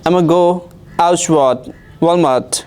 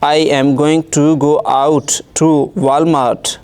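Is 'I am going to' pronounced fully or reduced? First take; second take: reduced; fully. First: 'I am going to' is squeezed into 'I'ma'. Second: Every word is pronounced fully and separately. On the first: This is how native speakers say it. "अगर इसी जुमले को कोई अंग्रेज़ बोलेगा native speaker" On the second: This is how learners say it. "अगर हम पढ़ते हैं ऐसे सेंटेंस"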